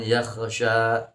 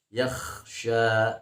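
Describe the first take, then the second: First: The kh is given an echoing bounce (qalqalah). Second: The kh is smooth and thick, without a bounce. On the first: The speaker calls it wrong. "bukan yakhsha ya, tidak boleh dikolkolahkan" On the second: The speaker calls it right. "tapi dibacanya yakhsha"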